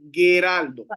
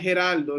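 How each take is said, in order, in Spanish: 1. Empieza con un sonido g fuerte. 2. Empieza con un sonido j gutural del español. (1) "Es Geraldo" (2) "Nunca como J. Nunca en la vida. No hay Geraldo en griego"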